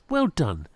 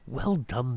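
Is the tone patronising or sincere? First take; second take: patronising; sincere. First: It is said in a patronising, condescending tone. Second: It is said in a plain, sincere tone. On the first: The praise talks down to the people praised. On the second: The praise is meant genuinely.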